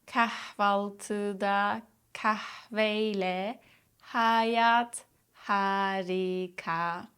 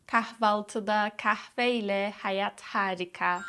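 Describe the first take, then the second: First: "Kahvaltıda kahveyle hayat harika" very slowly, each H lightly exhaled; slow demo. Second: Said in the usual way. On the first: Shown as a demonstration. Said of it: "Practice lightly exhaling on the H sounds".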